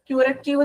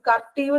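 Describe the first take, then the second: First: The word begins with a 'kyoo' sound. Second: The word begins with a 'ker' sound. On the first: "പ്രൊനൗൺസിയേഷനെ ക്യൂററ്റീവ് എന്നും പറയും" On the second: "കർട്ടീവ് എന്നും പറയും"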